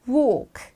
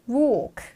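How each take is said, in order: Both takes have the same delivery.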